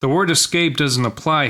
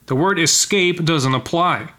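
First: Said in the usual way. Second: A sharper, higher, slower snap at "word"; snapped. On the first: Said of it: "I'm sorry". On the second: Acted. Man rebuking his wife, a higher, slower snap. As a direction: bite the line off as a rebuke. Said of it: "he snapped".

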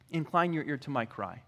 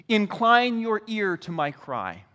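First: Lower, softer repeat of the psalm; hushed echo. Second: Said in the usual way. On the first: Acted. Psalmist asking the Lord to listen, hushed echo. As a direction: bring it down to an intimate prayer.

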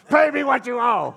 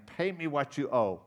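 First: Screamed high and loud with a laugh; furious yell. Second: Said in the usual way. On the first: Shown as a demonstration. Preacher acting the servant who chokes his debtor, shouting. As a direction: roar the demand at him. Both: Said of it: "I just wanted to do this".

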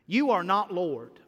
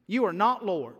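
First: "You" hit hardest, "are not Lord" falling away; stress on you. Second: "not" punched, "You" kept light; stress on not. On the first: Preacher pointing at the congregation, weight on "You". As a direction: lean on "You" and let "Lord" drop. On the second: Preacher correcting the congregation, weight on "not". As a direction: hit "not" and let "Lord" fall. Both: Acted. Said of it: "preacher repeats the line".

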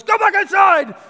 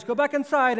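First: High, very loud alarmed yell; dad's full shout. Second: Raised, higher voice of a warning dad; dad's firm order. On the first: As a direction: shout at a child in danger, full force. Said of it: "And he shouts at her". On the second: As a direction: firmly order a child back, short of shouting. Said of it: "and the dad goes". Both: Retold or imitated.

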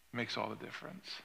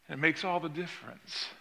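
First: Repeated much softer, almost to oneself; preacher's quiet echo of his point. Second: Said in the usual way. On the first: Acted. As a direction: let the line fall away quietly.

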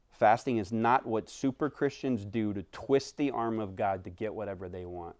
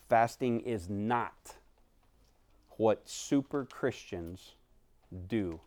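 First: Said in the usual way. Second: Fasting is not said slowly with pauses; weighty slow delivery before the full sentence; slow, spaced emphasis. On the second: Shown as a demonstration.

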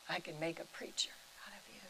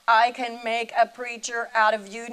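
First: Hushed, quick whisper of the sacred words. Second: Loud proclamation. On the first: Real, not acted. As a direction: breathe it out in a whisper. Repeating God's words softly. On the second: Retold or imitated. The voice of God proclaiming.

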